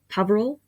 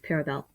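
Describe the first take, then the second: First: The name has V before R. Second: The name has R before V. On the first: The speaker calls it wrong. "he pronounces as Care Paverel" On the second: The speaker calls it right. "but no, it's Paravel"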